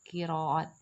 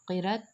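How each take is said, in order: First: The word has three syllables, with a long a. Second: The word has two short syllables. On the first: The speaker calls it right. "ये लफ्ज़ इस तरह बोला जाता है" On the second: The speaker calls it wrong. "कहना दुरुस्त नहीं"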